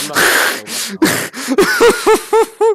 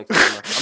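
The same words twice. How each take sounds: First: Much higher, louder, slow stretched wail; high drawn-out whine. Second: Quick, loud refusal; loud and fast. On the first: Pretend. Repeats refusal, drawn out. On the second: Real, not acted. Refuses to explain his fanfics.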